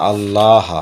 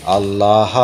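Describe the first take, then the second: Both takes have the same delivery.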